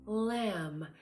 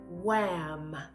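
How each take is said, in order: First: The first sound is a clear L sound. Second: The first sound is a rounded W-like sound. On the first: The speaker calls it right. "if you keep your tongue up there... you can hear the right production" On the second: The speaker calls it wrong. "if you round your lips to say the L sound... it sounds like a W"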